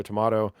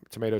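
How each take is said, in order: First: "tomato" with an ah in the middle; to-MAH-to pronunciation. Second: "tomato" with an ay in the middle; to-MAY-to pronunciation. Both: Shown as a demonstration. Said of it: "whatever, tomato, tomato".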